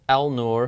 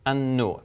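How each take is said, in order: First: The L sound is pronounced before the n. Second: The L is absorbed into a doubled n. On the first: The speaker calls it wrong. "you don't pronounce it as al-nur" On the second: The speaker calls it right. "but you would pronounce it as an-nur"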